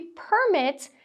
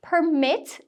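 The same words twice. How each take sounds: First: "permit" as PER-mit, slow; "permit" with strong start, weak end; stress on first syllable. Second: "permit" as per-MIT, slow; "permit" with weak start, strong end; stress on second syllable. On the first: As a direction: lean on PER in "permit", the noun. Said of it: "sílaba tônica marcada ali na primeira". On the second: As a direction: lean on MIT in "permit", the verb. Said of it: "a sílaba tônica vai ser a segunda". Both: Shown as a demonstration.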